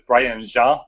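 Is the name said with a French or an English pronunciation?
French. The name has a French, Quebec-style pronunciation. This is how people from Quebec say it. "I'm from Quebec, so I'll always pronounce this"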